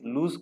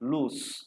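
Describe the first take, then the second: First: The word ends with a buzzing z sound. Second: The word ends with a hissing s sound. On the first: The speaker calls it wrong. "దీన్ని చదవాల్సింది లూజ్ కాదు" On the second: The speaker calls it right.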